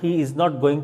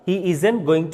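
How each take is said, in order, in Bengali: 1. 'Is not' দুটি আলাদা শব্দ হিসেবে বলা হয়। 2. 'Is not' সংকুচিত হয়ে একটি সিলেবল-গ্রুপে বলা হয়। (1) "আপনি বলেন he ইজ নট going" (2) "contraction form use করবেন"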